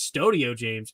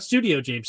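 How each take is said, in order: First: The first syllable sounds like 'stoh'. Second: The first syllable sounds like 'stoo'. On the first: The speaker calls it right. "It's Stowe" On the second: The speaker calls it wrong. "not Stu"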